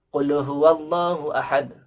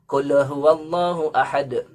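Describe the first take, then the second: Both takes have the same delivery.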